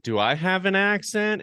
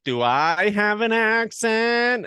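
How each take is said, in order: First: Said in the usual way. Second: Put-on high, slow Welsh lilt on Do I have an accent; mock Welsh accent. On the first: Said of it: "I remember saying". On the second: Welsh student mimicking the American's question, Welsh lilt. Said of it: "And he was like".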